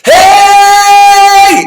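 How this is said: The shout has a clean, undistorted tone.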